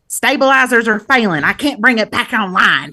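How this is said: It is said with a twangy Southern accent. "she has like a real twangy Southern accent"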